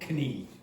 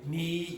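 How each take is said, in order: First: The word starts with a k sound. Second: The word starts without a k sound. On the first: The speaker calls it wrong. "you don't say knee" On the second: The speaker calls it right. "you say knee"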